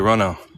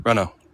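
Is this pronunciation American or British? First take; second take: British; British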